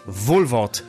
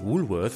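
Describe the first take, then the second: First: The name is pronounced in a German, spelling-based way. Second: The name is pronounced the standard, English-like way. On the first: This is the family's own way of saying it. "bei uns in der Familie seit Generationen heißt es" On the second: This is the store's actual name. "wie es eigentlich heißt"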